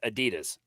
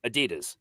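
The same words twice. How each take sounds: First: It is said with an American pronunciation. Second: The same.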